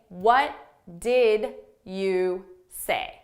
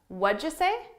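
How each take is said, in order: First: Each word is said separately and fully. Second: The first three words blend into one sound. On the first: "I'm actually saying" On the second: "through linking and reducing our sounds, this is going to sound like what'd-ya"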